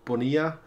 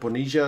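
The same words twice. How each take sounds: First: The name is said without a Buenos Aires accent. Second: The name is said in a Buenos Aires accent. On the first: The speaker calls it wrong. "not Bonilla" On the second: The speaker calls it right. "in the Buenos Aires accent, Bonilla is the pronunciation"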